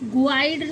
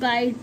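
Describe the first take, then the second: First: A 'u' sound is heard before the 'ai'. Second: No 'u' sound is heard before the 'ai'. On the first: The speaker calls it wrong. "गुआइड नहीं पढ़ते इसको" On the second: The speaker calls it right. "गाइड पढ़ते हैं"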